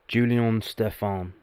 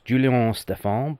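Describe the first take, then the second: First: The name is said in a plain English accent. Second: The name is said in a French accent.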